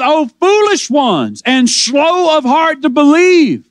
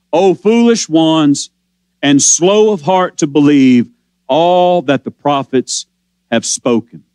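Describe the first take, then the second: First: Shouted rebuke. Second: Slow and low, weighing every word of the rebuke; slow, low scripture reading of a rebuke. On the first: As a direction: call it out slowly like a preacher rebuking. Preacher crying out Jesus' rebuke. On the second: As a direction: let each phrase land slowly, low and grave. Preacher voicing Jesus' rebuke. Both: Acted.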